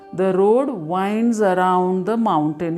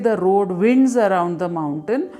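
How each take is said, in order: First: The vowel in 'winds' is long, as in 'wine'. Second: The vowel in 'winds' is short, as in 'win'. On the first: The speaker calls it right. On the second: The speaker calls it wrong.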